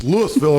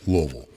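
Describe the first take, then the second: First: "Louisville" spelled out, "LOO-is-vill"; Illinois pronunciation. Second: "Louisville" swallowed to "LUV-ul"; Kentucky pronunciation. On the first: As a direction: say "Louisville" with the s sounded, three syllables. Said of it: "if you're in Illinois". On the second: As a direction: mumble "Louisville" low, two syllables. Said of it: "In Kentucky". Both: Shown as a demonstration.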